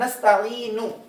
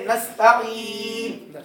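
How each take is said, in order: First: The word ends with a short vowel after n. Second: The word stops on the final n consonant.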